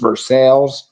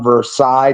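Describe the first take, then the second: First: It is said the local Ohio way. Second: It is said the original foreign way.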